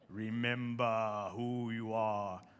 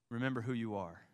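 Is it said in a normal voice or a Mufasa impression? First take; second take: Mufasa impression; normal. First: It is said in a deep Mufasa impression. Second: It is said in his normal speaking voice.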